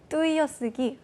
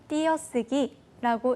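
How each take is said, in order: First: The first vowel is a full 'ui' diphthong. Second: The first vowel is a plain 'i' sound. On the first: "의를 살려서 발음할 수 있는 분이 계신가요" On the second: "띄어쓰기라고 읽으십니다"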